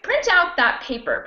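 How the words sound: The stress falls on the word out. The speaker calls it right. "I would put the stress on the out"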